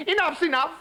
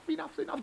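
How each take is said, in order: First: Frog pleading. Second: High frog voice dying away much softer; fading plea. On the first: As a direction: call it up the bowl. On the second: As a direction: let the plea fade out. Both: Acted.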